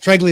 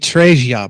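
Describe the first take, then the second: First: The name is said with English pronunciation. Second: The name is said with Italian pronunciation. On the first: It is how the name is normally said. The speaker calls it right. "Treglia is what, what my name. It's my name" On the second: It comes across as pretentious. The speaker calls it wrong. "in Italian it'd be Tregia"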